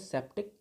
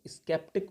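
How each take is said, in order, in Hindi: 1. यह शब्द s से शुरू होता है, k की ध्वनि नहीं है। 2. यह शब्द s से शुरू होता है और उसके बाद k आता है। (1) "इसको हम लोग बोलते हैं सेप्टिक" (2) "स्केप्टिक मत बोलना"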